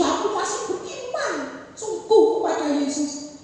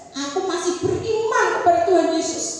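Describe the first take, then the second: First: Lightly gasped profession of faith; a hint of a sick man short of breath; imitating gasping. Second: Loud, clear, firm declaration; louder, steady confession of faith. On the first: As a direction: push the words out between breaths. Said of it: "ngomongnya sambil tersengal-sengal". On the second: Retold or imitated. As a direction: say it out plainly and firmly.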